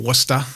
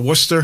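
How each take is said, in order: First: It is said in a local Massachusetts accent. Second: It is said in a general accent.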